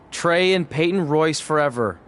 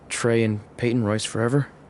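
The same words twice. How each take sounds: First: It is said loudly. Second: It is said quietly.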